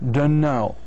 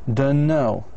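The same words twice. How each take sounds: First: The words are blended into one reduced form. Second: The same.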